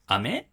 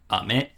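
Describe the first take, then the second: First: Said as a question with exaggerated pitch movement. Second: Said as a plain statement with normal pitch. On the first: It asks whether something is a candy. "in order to suggest that it's a question, you would exaggerate the accent" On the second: It names a candy. "that one goes up, starts down"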